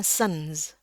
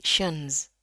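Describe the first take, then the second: First: "sens" avec un s initial au lieu de ch; prononciation fautive SENS. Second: "shens" avec ch initial et z final; bien chuinter le début de "shens"; prononciation SHENS. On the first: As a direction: siffler le début de "sens", sans chuinter. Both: Shown as a demonstration. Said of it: "Jadi bukan sens".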